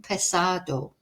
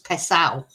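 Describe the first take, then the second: First: The d sound before the final o is pronounced. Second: The d sound is dropped, ending in ao.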